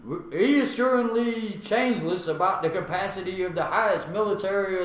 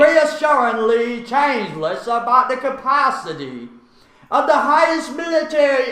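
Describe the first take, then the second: First: It is read in a plain American accent. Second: It is read in a put-on British accent.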